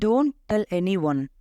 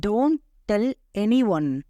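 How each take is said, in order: First: Said in the usual way. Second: Slow, word-by-word "Don't tell anyone"; slow teaching repeat. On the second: Shown as a demonstration. Teacher modelling an English phrase for learners, slowly word by word. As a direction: space out each word for learners.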